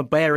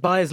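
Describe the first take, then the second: First: Bayer said as BAY-er, close to bear; American pronunciation. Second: Bayer said as BUY-er; German-style pronunciation. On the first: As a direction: say Bayer with an "ay" vowel, not "eye". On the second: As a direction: say Bayer with an "eye" vowel, like buyer. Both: Real, not acted. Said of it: "using for us the American pronunciation of Bayer".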